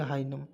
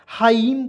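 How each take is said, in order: First: हाइनम with the N sounded; wrong pronunciation. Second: हाइम with no N sound; correct pronunciation. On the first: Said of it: "एकदम नहीं पढ़ेंगे". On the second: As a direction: say हाइम, ending straight on M. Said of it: "हाइम पढ़ेंगे". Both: Shown as a demonstration.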